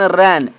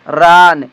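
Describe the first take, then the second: First: The vowel is a front 'a' as in 'cat'. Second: The vowel is a long open 'ah' sound. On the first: The speaker calls it right. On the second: The speaker calls it wrong.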